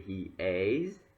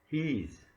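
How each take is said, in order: First: It is said as two separate syllables. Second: It is said as one contracted syllable. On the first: "if it's full form, so I can say he is" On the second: "I convert two syllable to one syllable, like he's, it's one syllable"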